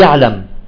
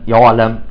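First: The ayn is hard, dry and tense. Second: The ayn is heavy with rounded lips. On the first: "البعض ينطقها قاسية يابسة شديدة" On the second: "يخرجها مفخمة"

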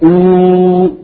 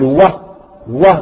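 First: It is a long oo vowel from the throat. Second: It is a consonant w made with the lips. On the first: "الواو المدية نقول أو" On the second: "الواو غير مدية يكون مخرجها الشفتين"

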